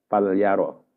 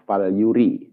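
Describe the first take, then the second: First: The verb is said with 'ya' after 'fal'. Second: The verb is said with 'yu' after 'fal'. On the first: The speaker calls it wrong. "kemarin saya membaca fal yaro" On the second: The speaker calls it right. "yang betul adalah falyuri"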